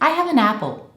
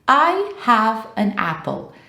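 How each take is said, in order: First: The words flow together like one long word. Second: Each word is said separately with small gaps. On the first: The speaker calls it right. "I'm not leaving any space between words" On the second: The speaker calls it wrong. "nobody really speaks like this in English"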